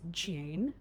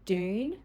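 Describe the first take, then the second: First: It begins with a blended j sound. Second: It begins with a separate d and y sound.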